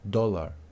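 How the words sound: The vowel is a short rounded o sound. "como una O corta en inglés británico"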